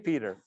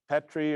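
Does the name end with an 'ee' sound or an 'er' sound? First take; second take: er sound; ee sound. First: The name ends with an 'er' sound. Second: The name ends with an 'ee' sound. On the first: The speaker calls it right. "that's pronounced Peter" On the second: The speaker calls it wrong. "I wanted to call it, you know, Petri or something"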